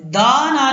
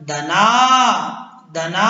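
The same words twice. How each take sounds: First: "दा ना" with the first vowel wrongly drawn out; wrong long vowel. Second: "दना" with brief "द", long "ना"; short first vowel. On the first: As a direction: stretch "दा" before "ना", as a mistake. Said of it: "दा ना नहीं करना". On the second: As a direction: cut "द" short and draw out "ना" in "दना". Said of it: "दाल के साथ अलिफ नहीं है". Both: Shown as a demonstration.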